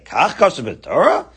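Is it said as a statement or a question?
question. It is said as a challenging question.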